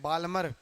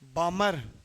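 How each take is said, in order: First: The word is said with a clear L sound. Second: The word is said without any L sound. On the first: The speaker calls it wrong. "Hindi वाले कई बार बामर को क्या बोल देते हैं" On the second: The speaker calls it right. "एल silent है भाई"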